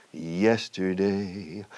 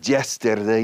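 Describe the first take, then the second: First: Correct soft Y, sung. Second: "yesterday" said as "jesterday"; hard j and spoken, loud "yesterday"; mock learner's "jesterday"; mispronounced Y. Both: Shown as a demonstration. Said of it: "[name] no decía".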